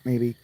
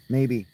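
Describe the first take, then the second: No difference in how they are said.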